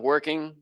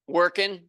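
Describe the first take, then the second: First: The ending is said with the final g. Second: The ending is said without the final g.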